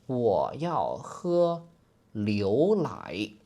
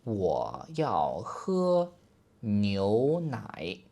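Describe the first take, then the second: The two takes are said the same way.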